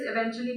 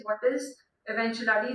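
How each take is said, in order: First: Eventually said properly, e-VEN-tu-al-ly, four syllables; correct word. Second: Eventuality with an extra syllable, ev-en-tu-AL-i-ty; child's mispronunciation. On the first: Father correcting his daughter, saying eventually properly. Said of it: "means in a little while". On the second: Girl asking her father the word, mispronounced eventuality. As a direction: say eventuality as the girl wrongly does, five syllables. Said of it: "She wants to say eventually". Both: Shown as a demonstration.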